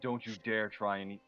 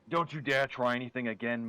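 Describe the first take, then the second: First: It is said in a plain voice. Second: It is said in an Australian accent.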